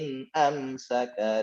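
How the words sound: There is a slight hold after 'in am'. The speaker calls it right. "Ada jeda dulu"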